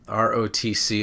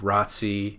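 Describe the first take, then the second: First: Each letter is spoken separately. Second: It is spoken as one word. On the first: "is an initialism" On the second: "is an acronym"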